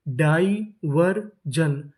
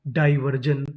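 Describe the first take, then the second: First: diversion very slow as डाइ, वर, जन; syllable by syllable. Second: Said in the usual way. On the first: Shown as a demonstration. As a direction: sound out diversion with gaps between syllables. Teacher sounding out new word.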